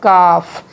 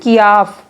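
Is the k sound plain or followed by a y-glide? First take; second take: plain; y-glide. First: The k is plain with no glide. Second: The k is followed by a y-glide. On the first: The speaker calls it right. "इसकी आवाज़ है काफ" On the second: The speaker calls it wrong. "कियाफ इसकी आवाज़ नहीं है"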